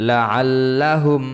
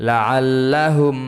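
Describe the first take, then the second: Both takes have the same delivery.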